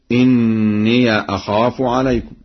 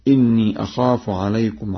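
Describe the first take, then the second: First: "إني" pronounced inniya, with a held n; fatha on ya. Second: Said in the usual way. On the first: Shown as a demonstration. Teacher demonstrates the second place, "إني" said inniya. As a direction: recite "إني" with an open final -ya. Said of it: "بفتح ياء الإضافة".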